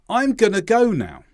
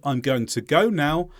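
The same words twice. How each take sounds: First: The words are run together with sounds dropped. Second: Every word is pronounced fully and separately. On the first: "you don't even hear them at all" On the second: "Instead of"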